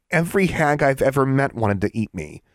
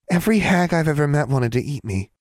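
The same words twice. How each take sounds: First: Put-on high-pitched, protesting young witch; incredulous girl. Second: Lightly mimicked girl's protest, high-pitched; mimicking Alexandra. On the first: Alexandra to the lecturing hag, incredulous. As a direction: protest it in disbelief. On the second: Hag repeats the girl's words to her, mimicking. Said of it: "mimicking Alexandra's voice with startling accuracy". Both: A narrator's reading.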